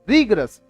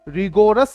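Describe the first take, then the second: First: The middle vowel is dropped. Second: The middle vowel is fully pronounced. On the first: The speaker calls it right. "इसकी correct pronunciation क्या है? रीग्रस।" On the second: The speaker calls it wrong. "रिगोरस नहीं बोलना"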